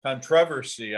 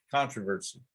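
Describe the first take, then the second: First: Controversy stressed on TROV, con-TROV-ersy; controversy with the weight on the second syllable. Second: Controversy stressed on CON, CON-troversy; controversy with the weight on the first syllable. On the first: Host quizzing golf coach on his odd word, stressed second syllable. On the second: Host giving his own version, stressed first syllable. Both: Shown as a demonstration.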